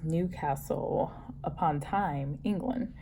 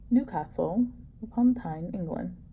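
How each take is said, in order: First: It is said in her American accent. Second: It is said in a put-on British accent.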